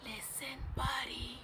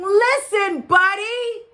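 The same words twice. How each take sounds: First: Very soft, hushed call; whispering. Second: Loud, high parents' yell. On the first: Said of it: "They tried whispering". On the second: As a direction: yell to get through to a child who won't listen. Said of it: "His parents tried yelling". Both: A narrator's reading.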